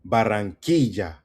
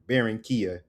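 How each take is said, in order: First: It is said with a Spanish pronunciation. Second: It is said with an American English pronunciation. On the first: "Emphasis on key" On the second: "as you guys would say in American or English"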